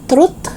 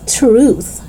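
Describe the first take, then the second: First: "truth" as short "trut"; short vowel, hard T closing "truth". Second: Tongue out to close "truth"; TH sound. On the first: Teacher showing learners the mistake, "truth" with final T. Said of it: "It's not truth". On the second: Teacher correcting learners, "truth" with clear TH. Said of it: "So it's truth". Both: Shown as a demonstration.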